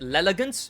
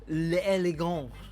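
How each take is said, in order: First: The word is pronounced with an anglicized, joking sound. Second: The word is pronounced with a French-style sound. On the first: It is said as a joke. "I could be funny and pronounce it" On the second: It is an attempt at the proper pronunciation. "I'll give it the benefit of the doubt and pronounce it"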